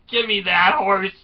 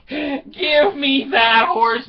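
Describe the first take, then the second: First: Raised, higher-pitched order; mock urgent demand. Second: Very high, slow, loud cry; hammed-up insistent demand. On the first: Wife wanting out of town, mock urgent demand. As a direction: play the fed-up wife demanding. Wife wants to flee, first try. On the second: Wife repeating her escape demand, slow high mock yell. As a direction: stretch every word in mock desperation.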